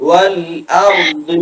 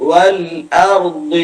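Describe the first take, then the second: No difference in how they are said.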